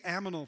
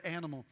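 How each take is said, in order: First: "aminal", with m and n swapped; child's mispronunciation. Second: Said in the usual way. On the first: Retold or imitated. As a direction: say "aminal" like a toddler muddling animal. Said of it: "she would say aminal". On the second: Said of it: "That's the word animal".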